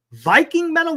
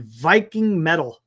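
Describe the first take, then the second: First: Viking Metal? shot up high, a touch louder; incredulous echo of the genre name; surprised question. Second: Said in the usual way. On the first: Real, not acted. Reading a strange genre aloud, surprised high echo.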